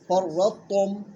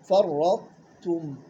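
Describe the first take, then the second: First: The t sound is swallowed and not heard. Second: The t sound is clearly pronounced. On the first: The speaker calls it wrong. "وين راحت التاء؟ راحت" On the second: The speaker calls it right. "بالتالي بدنا نكون حذرين"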